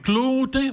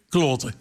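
First: The word is said with a pinched sound. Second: The word is said with a broad sound. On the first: The speaker calls it wrong. "want dat knept een beetje" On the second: The speaker calls it right. "het Gelandse kloten"

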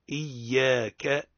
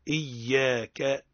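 First: The y sound is doubled and the vowel lengthened. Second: The same.

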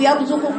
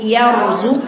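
First: The letters are run together in one blur. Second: Each letter is articulated distinctly and evenly. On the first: The speaker calls it wrong. "وليست يرزقوا يرزقوا كله" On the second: The speaker calls it right. "بتدي كل حرف حقه ومستحقه"

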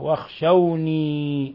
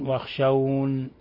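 First: The word ends in a long ee sound. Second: The word ends on a bare n sound. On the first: "بالياء الخالصة" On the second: "يقف بالنون"

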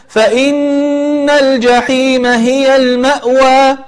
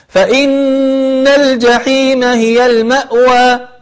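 No difference in how they are said.

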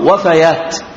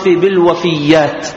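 First: The y sound is single and short. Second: The y sound is doubled and held longer. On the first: The speaker calls it right. "الصواب وفيات" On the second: The speaker calls it wrong. "بتجديد الياء"

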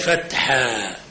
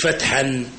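First: The word ends in a long a vowel. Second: The word ends with an n sound. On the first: The speaker calls it right. "تنوين فتح دائما تقلب ألفة وتمد مقدار حركتين" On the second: The speaker calls it wrong. "مش فتحا"

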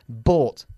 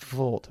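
First: The initial B is strong, lips pressed together. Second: The initial B is soft, lips barely closed. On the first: The speaker calls it right. "La B más fuerte en bought. Apretando los labios" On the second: The speaker calls it wrong. "Siempre dices bought"

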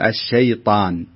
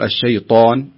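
First: The vowel is open with spread lips. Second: The vowel is rounded with pursed lips. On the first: The speaker calls it right. "ولكن قل الشيطان" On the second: The speaker calls it wrong. "لا تقول الشيطان"

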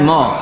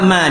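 First: The syllable is heavy, sounding like mo. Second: The syllable is light with an open a. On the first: The speaker calls it wrong. "bukan ma" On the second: The speaker calls it right. "tetap ma dia"

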